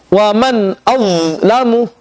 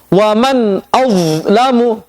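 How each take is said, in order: The two takes are said the same way.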